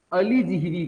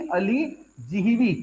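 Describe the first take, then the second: First: Said in the usual way. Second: "अलीजिह्वी" drawn out slowly, each syllable clear: a-li-ji-hvi; slow, careful model pronunciation of "अलीजिह्वी". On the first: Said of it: "कहते हैं". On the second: Shown as a demonstration. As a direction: sound out "अलीजिह्वी" slowly for the class. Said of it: "क्या बोलते हैं इसको?".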